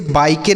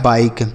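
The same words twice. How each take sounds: First: बाइके with the final e sounded as an extra syllable; wrong pronunciation demo. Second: Said in the usual way. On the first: Shown as a demonstration. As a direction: voice the silent e at the end of बाइके. (बाइके के अंत का ए बोलकर गलत उच्चारण) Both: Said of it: "इसे बाइके नहीं पढ़ेंगे".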